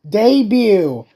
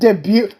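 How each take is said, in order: First: The final t is silent. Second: The final t is pronounced. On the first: The speaker calls it right. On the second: The speaker calls it wrong. "not debut"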